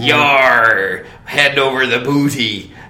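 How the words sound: It is said in a low pirate voice.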